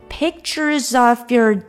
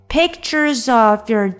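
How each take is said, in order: Both takes have the same delivery.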